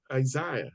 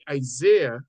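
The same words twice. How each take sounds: First: "Isaiah" with an English EYE in the middle; English pronunciation. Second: "Isaiah" with an American AY as in "say"; American pronunciation. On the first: Showing the class how the English say it, "Isaiah" as eye-ZY-uh. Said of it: "the English says Isaiah". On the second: Showing the class how Americans say it, "Isaiah" as eye-ZAY-uh. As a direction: say "Isaiah" the American way, middle vowel like "day". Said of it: "The Americans say Isaiah". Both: Shown as a demonstration.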